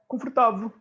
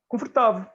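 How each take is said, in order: First: It is said with a European Portuguese accent. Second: It is said with a European Portuguese accent.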